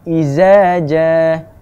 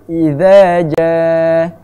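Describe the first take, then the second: First: The first word has a sharp 'z' sound. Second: The first word has a soft 'th' sound. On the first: The speaker calls it wrong. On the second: The speaker calls it right. "Sepatutnya za itu kena bunyi yang tumpul"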